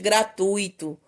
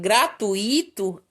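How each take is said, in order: First: The stress falls on the standard syllable. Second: The stress falls on the commonly misplaced syllable. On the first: The speaker calls it right. "ao invés de" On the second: The speaker calls it wrong. "indica os erros na pronúncia em relação à acentuação das palavras"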